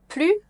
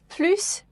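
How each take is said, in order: First: The final S sound is left silent. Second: The final S sound is clearly pronounced. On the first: Something has stopped happening. "You do not pronounce the S" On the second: There is more of something. "you can pronounce and you need to pronounce the S"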